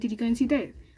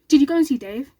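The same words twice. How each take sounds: First: The question is asked in a wary, disapproving tone. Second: The question is asked in a plain, neutral tone. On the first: The speaker calls it right. "Like, really, I hope you didn't" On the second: The speaker calls it wrong. "No, he didn't say it like that"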